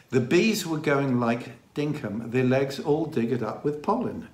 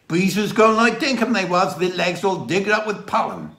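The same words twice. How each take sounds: First: Said in the usual way. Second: Broad Dorset, high and loud; imitated Dorset countryman, pitched up; Dorset dialect. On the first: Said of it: "Translated to something like". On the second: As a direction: repeat it in the villager's thick Dorset accent. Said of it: "The Dorset dialect".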